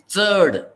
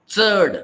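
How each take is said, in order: First: The first sound is like ts, tongue on teeth. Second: The first sound is like ts, tongue on teeth.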